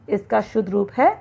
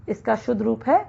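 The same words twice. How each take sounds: No difference in how they are said.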